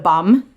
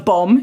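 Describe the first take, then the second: First: It is said in a put-on accent, like 'bum'. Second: It is said in the speaker's own ordinary accent.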